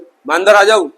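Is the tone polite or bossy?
bossy. It is said in a curt, bossy tone.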